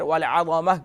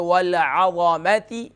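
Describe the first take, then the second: First: The word ends with a soft h sound. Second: The word ends with a ti sound. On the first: The reciter stops or breathes at this word. "अगर आपके यहाँ सांस टूट गया तो फिर वल अज़मह पढ़ेंगे" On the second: The reciter continues without stopping. "अगर आपका सांस कंटिन्यू है"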